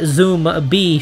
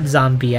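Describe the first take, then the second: First: It is said as two separate parts, zoom and bee. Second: It is said as one blended word, zombie. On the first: The speaker calls it right. "I said Zoom B this time. Yeah, I said it correctly" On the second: The speaker calls it wrong. "not Zombie"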